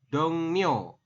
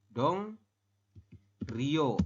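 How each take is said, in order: First: The second syllable starts with an n sound. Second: The second syllable starts with an r sound. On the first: The speaker calls it right. "menurut aturan baca ya, Anda membacanya bukan Dong Rio, tapi dibacanya adalah Dong Mio" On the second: The speaker calls it wrong. "Ini secara tuli tulisan ya"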